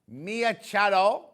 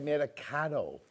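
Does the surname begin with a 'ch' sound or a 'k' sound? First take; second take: ch; k. First: The surname begins with a 'ch' sound. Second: The surname begins with a 'k' sound. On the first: "I think you say it like that" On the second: "or you say Mia Caro"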